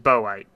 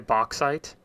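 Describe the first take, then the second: First: The middle has an 'o' sound, no 'ks'. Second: The middle has a clear 'ks' sound. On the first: This is how the speaker learned it as a child. "A U X makes an O sound" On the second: This is how other people say it. "I hear people say bauxite"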